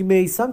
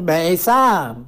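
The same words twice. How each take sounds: First: Said in the usual way. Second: «میثم» in a drawn-out Turkish accent. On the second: Shown as a demonstration. Showing how locals liked the name said, in a Turkish accent. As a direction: stretch «میثم» slowly, Turkish-style. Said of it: "لهجهٔ ترکی مثل لهجهٔ شیرین".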